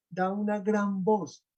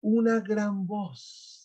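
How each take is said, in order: First: Said in the usual way. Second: "una gran voz" drawn out slowly, each word weighted; slow emphasis. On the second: Shown as a demonstration. Teacher stressing the quote for students, slow and weighty. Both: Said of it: "Y de nuevo en el versículo treinta y siete dice".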